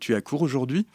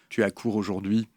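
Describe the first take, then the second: First: The pitch rises at the end like a question. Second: The pitch falls at the end like a statement. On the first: It asks a question. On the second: It states a fact.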